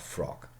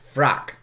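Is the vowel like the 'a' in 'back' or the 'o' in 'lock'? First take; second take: o; a. First: The vowel is a rounded 'o' sound. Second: The vowel is an open 'a' sound. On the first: This is the modern pronunciation. "not frock" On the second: This is the older, early modern pronunciation. "Shakespeare, in all likelihood, would have said frack"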